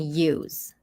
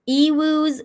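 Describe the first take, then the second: First: The word is said with one syllable. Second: The word is said with two syllables. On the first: The speaker calls it wrong. "It's just pronounced you?" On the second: The speaker calls it right. "Ewus is way better than use"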